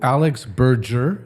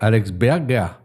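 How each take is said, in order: First: The name is said with an English pronunciation. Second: The name is said with a German pronunciation. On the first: This is how the name is said in England. "en Angleterre" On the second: This is how the name is said in Germany. "en Allemagne"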